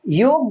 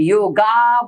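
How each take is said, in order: First: The word ends on the bare 'g' consonant. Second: The word ends in a long 'aa' vowel. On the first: "गकार में एंड हो जाएगा, वो भी सही नहीं है" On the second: "आकार में एंड हो जाएगा"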